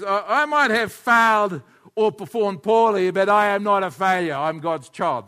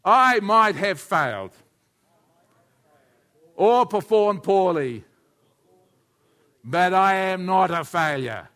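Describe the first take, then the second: First: Loud, slow model line for the congregation to echo; loud lead-in to a call and response; declaration to repeat. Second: Loud, slow group recitation; the whole room repeating the pastor's words; congregation echo. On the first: Shown as a demonstration. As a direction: proclaim it slowly so they can repeat it. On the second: Real, not acted. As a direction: say it together slowly and firmly. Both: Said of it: "everybody say that with me".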